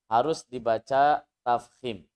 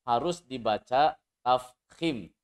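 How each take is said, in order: No difference in how they are said.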